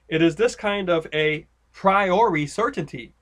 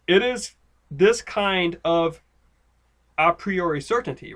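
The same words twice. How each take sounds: First: 'A' is grouped together with 'kind of'. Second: 'A' is grouped together with 'priori'. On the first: Priori stands on its own as an adjective. The speaker calls it wrong. "you might read it this way" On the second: A priori is one phrase describing the certainty. The speaker calls it right. "it reads this way"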